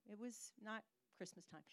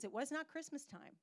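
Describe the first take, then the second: First: "It was not Christmas time" dropped much softer; quiet aside. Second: "not" pushed a little higher; stress on not. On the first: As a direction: repeat it under your breath. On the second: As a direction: hit "not" firmly. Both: Shown as a demonstration.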